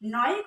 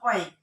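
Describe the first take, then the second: First: The suffix begins with an n sound. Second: The suffix begins with a vowel sound. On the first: The speaker calls it right. "তার চেয়ে আমরা নয়িক বললে জিনিসটা অনেক ভালো হয়।" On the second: The speaker calls it wrong. "অয়িকও অনেকে বলতে পারে"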